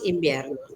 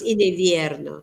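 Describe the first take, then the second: First: The consonant after 'in' is a b, as in tambor. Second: The consonant after 'in' is a lip-teeth v. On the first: This is how people actually say it. The speaker calls it right. "decimos invierno, igual que tambor" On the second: This is not how people actually say it. The speaker calls it wrong. "nosotros no decimos invierno"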